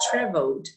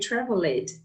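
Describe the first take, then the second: First: The ending joins the last syllable, no extra syllable. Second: The ending is said as an extra syllable. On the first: The speaker calls it right. "But traveled" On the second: The speaker calls it wrong. "never say traveled"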